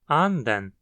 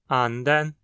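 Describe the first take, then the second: First: The pitch falls after the first syllable. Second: The pitch stays high after the first syllable. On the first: It means duck. "nota-se que a frequência cai da primeira para a segunda sílaba" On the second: It means spirit. "ela segue alta"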